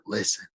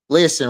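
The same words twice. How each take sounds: First: It is said in a whisper. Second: It is said in a normal voice.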